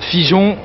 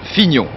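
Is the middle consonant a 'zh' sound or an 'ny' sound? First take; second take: zh; ny. First: The middle consonant sounds like 'zh'. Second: The middle consonant sounds like 'ny'. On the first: The speaker calls it wrong. "Non, pas Figeon" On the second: The speaker calls it right. "Fignon, ça s'écrit F I G N O N"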